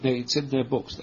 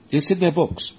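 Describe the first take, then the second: First: Said in the usual way. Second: "It's IN their books" punched, raised and louder; emphatic insistence. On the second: Shown as a demonstration. Teacher insisting to students, stress on "in". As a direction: stress on "in", said high and loud. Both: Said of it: "They can deny it as much as they want".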